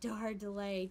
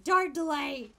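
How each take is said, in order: First: Said in the usual way. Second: Dar delay! called out louder, with a falling punch; louder exclamation. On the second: Shown as a demonstration. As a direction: repeat it as a joking exclamation.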